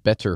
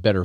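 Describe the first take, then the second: First: "better" with a deliberate hard T; T pronounced. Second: "better" slipping into "bedder"; T slipped to D. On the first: Shown as a demonstration. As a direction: correct it to "better" with a true T. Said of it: "I will pronounce it better for you". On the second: Real, not acted. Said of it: "I just did it right there".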